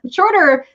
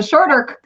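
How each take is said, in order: First: Shorter lifted high and louder; stress on shorter. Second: Said in the usual way. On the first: Shown as a demonstration. Stressing the quicker route through Canada, emphatic. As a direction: punch the word shorter up high.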